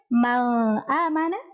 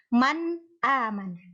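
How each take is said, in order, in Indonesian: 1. Bunyi n menyatu atau kabur dengan bunyi setelahnya. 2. Bunyi n diucapkan dengan jelas dan terpisah. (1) "tidak boleh menyamarkannya" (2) "itu harus dibaca jelas"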